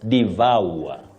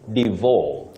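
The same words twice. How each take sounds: First: The second syllable glides through three vowel sounds. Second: The second syllable has a simpler vowel, no glide. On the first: The speaker calls it right. "the correct pronunciation of that word is devour. Vowel. ... It has what we call a triphthong" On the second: The speaker calls it wrong. "many people innocently say devour"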